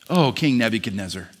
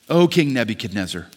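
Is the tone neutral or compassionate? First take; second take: compassionate; compassionate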